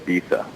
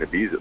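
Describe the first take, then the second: First: The middle consonant is a th sound. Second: The middle consonant is a z sound. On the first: The way cool people say it now. "I think cool people say Ibiza" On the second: The speaker's own habitual way of saying it. "I know that we're supposed to pronounce it differently now, but I'm just not going to do that"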